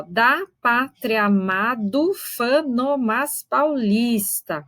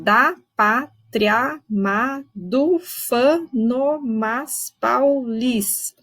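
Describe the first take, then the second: First: Very slow, vowels merged at the joins; slow metrical reading; slow scansion. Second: Very slow, syllables stretched and run together; slow metrical reading; slow scansion. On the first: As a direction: stretch out the verse to count its syllables. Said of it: "Esse verso não é tão fácil de contar". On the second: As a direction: read the verse slowly to count it. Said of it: "Esse verso é um pouquinho mais difícil de contar". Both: Shown as a demonstration.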